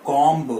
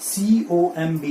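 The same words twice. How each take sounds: First: "comb" with final B sounded; wrong pronunciation. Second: "comb" as kawm, no B; silent B. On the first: Teacher rejecting the mistake, comb with audible B. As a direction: say comb as KOM-b. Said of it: "it is not comb". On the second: Teacher after spelling it out, comb said without B. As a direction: close comb on the M. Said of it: "बी है वो silent हो जाता". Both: Shown as a demonstration.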